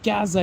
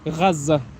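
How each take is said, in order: First: It starts with a plain hard g sound. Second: It starts with a throaty gh sound. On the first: The speaker calls it wrong. "it's not Gaza" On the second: The speaker calls it right. "it's Gaza. ... It's like a Gha"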